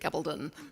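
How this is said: The name is said British-style with very tight lips. "The British pronunciation is usually Gabaldon, spoken with very tight lips"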